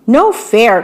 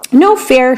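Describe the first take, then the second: First: Storybook protest with a small pitch jump; a touch of outcry, narrator's own voice; mild cry of protest. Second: Mild storybook shout, pitch lifting on it; a touch of indignant shout; shouted protest. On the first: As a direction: read it as a lightly acted complaint. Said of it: "cried Pip". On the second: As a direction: call it out as a lightly acted objection. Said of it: "shouted Squeak". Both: A narrator's reading.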